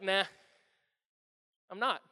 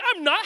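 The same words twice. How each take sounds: First: Calm, offhand denial; easy, understated refusal; unbothered. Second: High, loud indignant denial; acted wounded outburst; defensive. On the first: Acted. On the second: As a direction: protest it hotly, pitched up. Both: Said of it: "he didn't get defensive".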